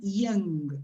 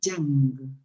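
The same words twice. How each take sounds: First: It begins with a soft, vowel-like glide. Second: It begins with a harder, buzzing consonant. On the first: The speaker calls it right. "this should be young, ... como una I" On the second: The speaker calls it wrong. "not young ... no como una Y"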